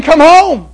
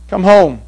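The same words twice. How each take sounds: First: High, loud call home. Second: Said in the usual way. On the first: Acted. The Lord calling sinners home, loud pleading call. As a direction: call them home with longing.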